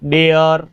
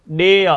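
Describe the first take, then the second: First: The final r sound is clearly pronounced. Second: The final r sound is almost silent. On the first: The speaker calls it wrong. "ऐसे पढ़ते हैं हम" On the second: The speaker calls it right. "वो शब्द बोला जाता है how डे"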